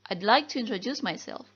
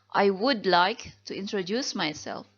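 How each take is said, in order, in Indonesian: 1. 'I would' disingkat menjadi satu suku kata. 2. 'I would' diucapkan sebagai dua kata penuh.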